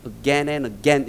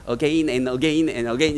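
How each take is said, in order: First: "Again and Again" chanted with a short "gen"; "Again and Again" with the vowels merged, in rhythm; English pronunciation. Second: "Again and Again and Again" chanted with "ge-in" in two syllables; "Again and Again and Again" with both vowels sounded; Korean-style pronunciation. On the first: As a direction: recite the lyric with "Again" as "어겐", in a low voice. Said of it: "이렇게 불렀잖아". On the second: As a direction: recite the lyric with "Again" as "어게인", low and drawn out. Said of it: "이렇게 부르든". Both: Shown as a demonstration.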